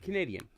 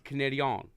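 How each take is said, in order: First: The word has an English-Canadian pronunciation. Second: The word has a French-Canadian pronunciation. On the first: The people meant speak English. "If you're talking about English-speaking Canadians, like from Vancouver and uh, Saskatchewan, you would say Canadian" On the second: The people meant speak French. "But if you're talking about the French Canadians, it's Canadian"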